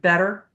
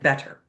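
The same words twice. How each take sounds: First: The middle consonant is a soft flapped D. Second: The middle consonant is a sharp clear T. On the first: "Instead, we say better. We have a flat D" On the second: "The Brits are going to really have a sharp, clear T, like better"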